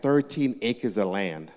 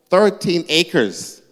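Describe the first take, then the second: First: Said in the usual way. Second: "Thirteen acres" drawn out slowly, loud and high; emphatic repeat. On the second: Real, not acted. Owner marvelling at own silliness, emphatic "Thirteen acres". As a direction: hit "Thirteen acres" hard, stretching both words.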